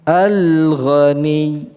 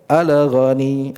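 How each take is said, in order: First: The L flows smoothly with no bounce. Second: The L bounces, adding an extra vowel. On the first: The speaker calls it right. "di situ lepas, tidak terlalu terpantulkan" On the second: The speaker calls it wrong. "di situ kita hindari"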